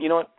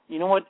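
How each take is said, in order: First: It is said in a calm, even tone. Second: It is said with heated, emotional tone. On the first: The adult is unmoved and steady. The speaker calls it right. "I praise kids in a calm, matter-of-fact tone" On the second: The adult is caught up in the child's upset. The speaker calls it wrong. "when you add your emotion to it and you do the"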